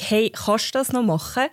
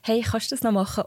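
First: The sentence is said louder and more insistently. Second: The sentence is said at a quieter, normal volume. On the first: "wenn ich den gleichen Satz lauter sage, wirkt er sehr viel eindringlicher" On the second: "als wenn ich sage"

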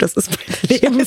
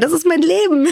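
First: It is said in a despairing, exasperated tone. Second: It is said in a happy, enthusiastic tone. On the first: The speaker is fed up with this life. "Verdammt, ... Oh Gott. So kann man es auch, ... wie man den Tonfall ändert bei dem Satz" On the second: The speaker loves this life.

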